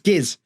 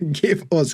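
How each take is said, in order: First: The words merge into one short syllable. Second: Both words are said fully as two syllables. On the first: "And that just becomes giz" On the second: "you'll often hear people say give us"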